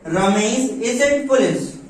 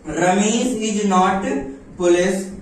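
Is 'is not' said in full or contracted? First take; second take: contracted; full. First: The words 'is not' are contracted to 'isn't'. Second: The words 'is not' are said in full. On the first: "तो इस तरह से बोलने में फर्क है।" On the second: "तो इस तरह से बोलने में फर्क है।"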